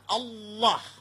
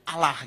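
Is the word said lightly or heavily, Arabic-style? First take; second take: heavy; light. First: It is said heavily, Arabic style. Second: It is said lightly, Indonesian style.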